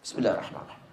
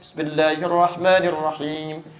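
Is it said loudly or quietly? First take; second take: quietly; loudly. First: It is recited softly, almost silently. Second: It is recited aloud, in a loud voice.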